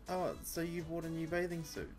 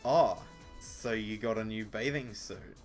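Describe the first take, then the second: First: It is said in a happy, cheerful tone. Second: It is said in a jealous, condescending tone.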